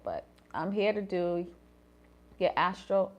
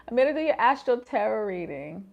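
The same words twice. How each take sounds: First: Said in the usual way. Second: A second, louder take of the intro; louder retake. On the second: Shown as a demonstration. Retaking her fumbled intro for viewers, louder. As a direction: say it again, louder and clearer.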